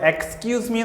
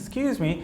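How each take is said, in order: First: The opening 'ex' sound is fully said. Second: The opening 'ex' sound is dropped entirely. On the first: "എക്സ്ക്യൂസ് me എന്നുള്ളതിൻ്റെ" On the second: "ഒരു ഷോർട്ടാണ് സ്ക്യൂസ് me"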